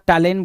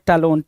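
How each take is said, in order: First: The final syllable sounds like 'len'. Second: The final syllable sounds like 'lon'. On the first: The speaker calls it wrong. "टैलेन बोल रहा है" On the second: The speaker calls it right. "क्या होना चाहिए था भाई टैलोन"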